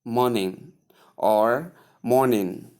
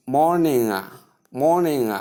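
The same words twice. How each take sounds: First: Morning with a shortened, careless ending; mispronounced morning. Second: Morning with a full long first vowel and ringing -ing; emphatic, fully sounded MOR-ning; correct pronunciation. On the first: Teacher showing learners how not to say morning, carelessly sounded. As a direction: say morning the wrong way, less emphatic, ending reduced. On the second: Teacher modelling morning for learners, emphatic and fully sounded. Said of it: "take note of how this word is pronounced". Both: Shown as a demonstration.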